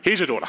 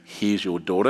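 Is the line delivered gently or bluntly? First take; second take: bluntly; gently. First: It is said bluntly and offhandedly. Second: It is said gently and tenderly.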